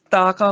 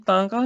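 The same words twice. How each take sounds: First: ਤਾਕਾ with two clean oral "aa" vowels; correct pronunciation demo. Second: ਤਾਕਾ with a nasal first vowel, "taankaa"; wrong pronunciation demo. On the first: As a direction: say ਤਾਕਾ as "taa-kaa", no nasal. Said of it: "ਤਾਕਾ ਬੋਲਣਾ". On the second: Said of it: "ਇਹਨੂੰ ਤਾਕਾ ਨਹੀਂ ਬੋਲਣਾ". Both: Shown as a demonstration.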